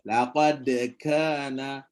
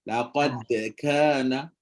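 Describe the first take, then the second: Both takes have the same delivery.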